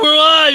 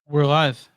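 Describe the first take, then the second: First: It is said with loud excitement. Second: It is said flatly, without excitement.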